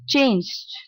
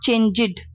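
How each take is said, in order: First: The ending is a short 'd' sound. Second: The ending is an extra 'id' syllable. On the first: The speaker calls it right. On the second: The speaker calls it wrong.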